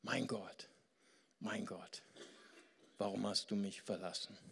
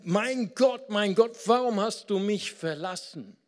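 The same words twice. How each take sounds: First: Soft, faint and broken; hushed, hopeless lament; weak, suffering voice. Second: Much higher and louder, a desperate shout; loud, despairing cry of abandonment; anguished cry. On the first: Acted. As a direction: let it fade out like a dying man. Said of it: "so absolut leidend". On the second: Shown as a demonstration. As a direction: hurl the words up at heaven in anguish. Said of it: "es kommt auf die Betonung an".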